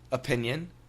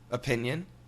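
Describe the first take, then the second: First: Relaxed, everyday American accent. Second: Relaxed, everyday American accent.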